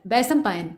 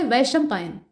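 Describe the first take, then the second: First: वैशंपायन said with a retroflex ष, tongue curled back; wrong sh sound. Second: वैशंपायन said slowly with a palatal श, tongue at the palate. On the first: Teacher voicing the misspelt form with retroflex sh. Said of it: "जैसे बोला गया". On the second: Teacher giving students the correct palatal sh. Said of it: "तालव्य श की तरह से उच्चारण". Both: Shown as a demonstration.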